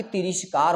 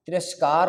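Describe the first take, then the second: First: तिरस्कार misread as ti-REESH-kaar; तिरस्कार with an I after the r; wrong "rish". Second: तिरस्कार with "ras" in the middle; correct short "ra". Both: Shown as a demonstration. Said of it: "ना कि तिरस्कार होता है".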